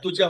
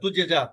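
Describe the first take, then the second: First: The j sound has no echoing bounce. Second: The j sound ends with an echoing bounce. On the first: The speaker calls it wrong. "তুজা হবে না" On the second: The speaker calls it right. "কলকলা হরফ তুজে যা, প্রতিধ্বনি"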